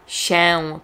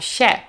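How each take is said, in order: First: The final vowel is nasal. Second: The final vowel is plain. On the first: "Nie powiedziałam" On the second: "powiedziałam się"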